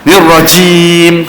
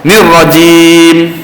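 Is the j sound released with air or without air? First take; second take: with air; without air. First: The j sound is released with a puff of air. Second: The j sound is released without any air. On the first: The speaker calls it wrong. "kurang tepat" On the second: The speaker calls it right. "lebih tepat"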